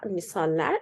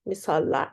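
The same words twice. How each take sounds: First: "misaller" with a front "ler" ending; corrected form misaller. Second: "Misallar" with back "a" vowels, "mee-sahl-lahr"; wrong form misallar. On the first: Teacher correcting herself to the right plural, "misaller". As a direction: end "misaller" on a front vowel, "mee-sahl-ler". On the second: Teacher trying the tempting wrong plural, "Misallar" with back vowels. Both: Shown as a demonstration. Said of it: "Misal, example".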